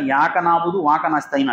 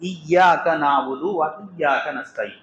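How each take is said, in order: First: Each 'iyyaka' loses its opening 'i' sound. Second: Each 'iyyaka' begins with its full opening 'i' sound. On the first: The speaker calls it wrong. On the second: The speaker calls it right.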